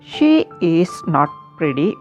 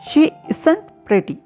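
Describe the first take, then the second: First: Every word is said in full, uncontracted. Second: The words is not are contracted to isn't.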